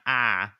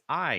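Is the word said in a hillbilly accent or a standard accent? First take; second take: hillbilly; standard. First: It is said in a hillbilly accent. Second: It is said in a standard accent. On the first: The speaker calls it wrong. "not I" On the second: The speaker calls it right. "she'd be like, it's I"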